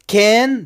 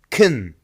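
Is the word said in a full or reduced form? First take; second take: full; reduced. First: The vowel is full and clearly pronounced. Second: The vowel is weak and reduced.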